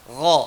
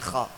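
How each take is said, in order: First: It starts with a voiced gargled gh sound. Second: It starts with a voiceless rasping kh sound. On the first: The speaker calls it right. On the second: The speaker calls it wrong. "bukan kha"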